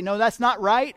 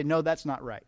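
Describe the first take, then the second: First: "No, that's not right" cut in louder, rising on "not"; interrupting correction. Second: Said in the usual way. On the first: Retold or imitated. Customer interrupts the cashier typing a wrong order, louder. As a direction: jump in to stop the typing. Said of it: "interrupt at that point and say". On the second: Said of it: "wait until they get to the end".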